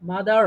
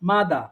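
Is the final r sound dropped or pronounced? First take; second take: pronounced; dropped. First: It ends with an audible r sound, American style. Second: It ends without an r sound, British style. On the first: "American যারা আছে ওরা উচ্চারণ করবে মাদার।" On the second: "British যারা আছে ওরা উচ্চারণ করে মাদা।"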